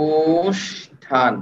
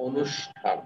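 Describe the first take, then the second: First: অনুষ্ঠান stretched very slowly, each sound held; very slow drawn out. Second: Said in the usual way. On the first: Shown as a demonstration. Teacher slowly sounding out অনুষ্ঠান for students. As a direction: draw the word out to hear every sound. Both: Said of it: "নিজে নিজে try করেন".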